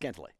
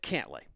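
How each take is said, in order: First: The name is said quickly and loosely. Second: The name is said slowly and carefully. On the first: The speaker calls it wrong. "When I say it fast" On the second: The speaker calls it right. "But it's Cantlay"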